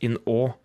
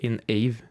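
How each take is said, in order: First: The last word is one open vowel without a v. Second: The last word sounds like 'ah-veh' with a v. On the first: The speaker calls it right. "det heter in å" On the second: The speaker calls it wrong. "Det heter ikke in ave"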